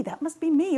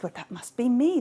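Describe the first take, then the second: First: More eager claim. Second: Eager claim. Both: Acted. Goddesses claiming the apple.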